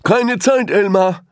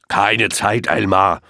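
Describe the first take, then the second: First: Much higher, louder rushed brush-off; hurried elephant. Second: Impatient lion. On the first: Elephant rushes past Elmar, high hurried brush-off. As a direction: wave him off in a hurry. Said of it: "sagte einer der Elefanten". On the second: Lion cuts Elmar off on the way to his nap, brusque. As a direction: cut him off impatiently. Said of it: "unterbrach ihn der Löwe". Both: A narrator's reading.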